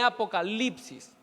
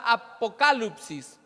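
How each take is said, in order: First: Said in the usual way. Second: "apocalipsis" said the Greek way, a-po-KA-lup-sis; Greek pronunciation. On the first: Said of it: "de donde viene apocalipsis". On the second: Shown as a demonstration. Preacher citing the original word, "apocalipsis" pronounced a-po-KA-lup-sis in Greek. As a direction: stress KA in "apocalipsis", with "lup" for "lip". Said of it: "Aquí revelación es la palabra".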